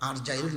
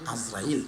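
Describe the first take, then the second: First: The r sound comes before the j sound. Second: The z sound comes before the r sound. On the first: The speaker calls it wrong. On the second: The speaker calls it right.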